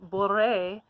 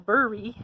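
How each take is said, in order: First: The name is said in a French way. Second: The name is said in an English way. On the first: The speaker calls it right. "if it says Boré" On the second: The speaker calls it wrong. "and you go Bury, we're going to know that you haven't done any kind of Googling"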